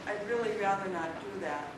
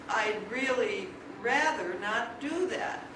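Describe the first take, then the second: First: It sounds only mildly reluctant and uncooperative. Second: It sounds very reluctant and uncooperative. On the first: "I can sound more uncooperative by saying" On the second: "incrementally uncooperative"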